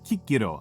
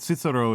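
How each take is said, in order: First: The name starts with a hard K sound. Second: The name starts with a soft S sound. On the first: "I know Kikiro is the more correct one" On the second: "Cicero is how I grew up saying it"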